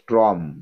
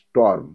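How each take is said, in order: First: The r sound comes before the vowel. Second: The r sound comes after the vowel. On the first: The speaker calls it wrong. "অনেকে উচ্চারণ করো স্ট্রম" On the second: The speaker calls it right. "কিন্তু এটা স্টর্ম"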